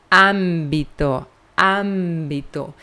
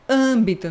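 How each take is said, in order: First: Âmbito slow, nasal first syllable, lower; Spanish pronunciation. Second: Âmbito with open Portuguese stressed a; wrong Portuguese-style âmbito. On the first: Teacher modeling Spanish âmbito slowly. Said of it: "nós dizemos". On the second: Teacher showing the Portuguese âmbito. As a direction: say âmbito the Brazilian way, open and clear. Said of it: "nós não dizemos". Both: Shown as a demonstration.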